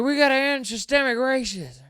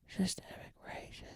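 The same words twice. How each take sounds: First: Much higher, loud mock speech yell; yelled speech line. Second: Sudden soft whisper of the key words "systemic racism". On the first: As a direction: shout the slogan like a rally speech, even the key words. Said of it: "he'll yell in a speech". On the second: Retold or imitated. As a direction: drop to a whisper right after the yelling. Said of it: "whispers the most important part".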